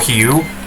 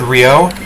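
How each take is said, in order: First: The name is said with a Portuguese-style pronunciation. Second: The name is said with an English-style pronunciation. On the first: The speaker calls it right. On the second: The speaker calls it wrong.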